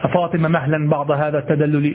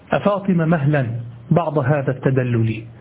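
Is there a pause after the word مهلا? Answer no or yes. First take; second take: no; yes. First: The phrase runs on without a pause after مهلا. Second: There is a clear pause after مهلا. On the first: The word بعض seems to be the object of مهلا. The speaker calls it wrong. "لا تقول هكذا" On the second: The word بعض belongs to a separate, omitted verb. The speaker calls it right. "المهم أنه في نبرات كلامك أعرف أنك فاهم"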